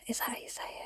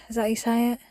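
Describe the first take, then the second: First: Breathy whispered repeat; whispered self-doubt. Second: Softer, muttered to herself; quiet doubtful aside; quiet self-question. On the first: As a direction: whisper it to yourself, embarrassed. Unsure of a word, whispering it. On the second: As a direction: ask it half under your breath. Unsure of a word, asking herself. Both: Real, not acted.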